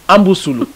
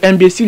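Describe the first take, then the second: First: The word is heavily distorted with added vowels. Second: The word has its standard French pronunciation. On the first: "ils disent amboussoulou" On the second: "À la place de imbécile"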